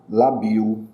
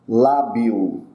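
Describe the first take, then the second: First: The stress is on the second syllable. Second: The stress is on the first syllable. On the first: The speaker calls it wrong. "Se não tivesse esse acento, eu leria lá" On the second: The speaker calls it right. "o acento novamente aqui"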